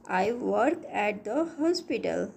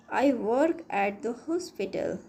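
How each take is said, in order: Both takes have the same delivery.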